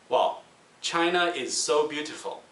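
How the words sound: The diphthongs are narrow and compressed. "the Chinese people might pronounce it something like"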